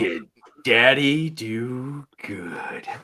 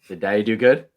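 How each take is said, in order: First: It is said slowly. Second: It is said at normal speed.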